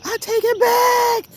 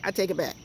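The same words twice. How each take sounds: First: Much higher, louder, slow delighted cry; joyful squeal. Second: Said in the usual way. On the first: Real, not acted. Apologizing to her guava tree, high joyful squeal. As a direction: take it back in a burst of joy. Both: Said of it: "I'm sorry, y'all".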